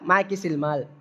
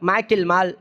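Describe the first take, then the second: First: The pronoun ending carries an added s sound. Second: The pronoun ending has no added s sound. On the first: This is the dialect form of the question. "அப்படி சொல்லியிருக்காங்க" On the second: This is the standard form of the question. "அது எப்படி கேட்டுருக்காங்க?"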